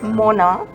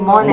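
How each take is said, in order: First: The name is pronounced the French way. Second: The name is pronounced the English way. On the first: "it's actually Mona because it is French" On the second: "it's easier to say"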